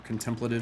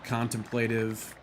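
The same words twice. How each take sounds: First: It is said the way British speakers say it. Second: It is said in the speaker's usual, non-British way.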